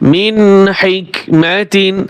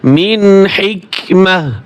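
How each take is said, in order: First: The word ends with a full 'tin' syllable. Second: The word ends with a soft 'h' sound. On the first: The reading continues without stopping. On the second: The reader stops at this word.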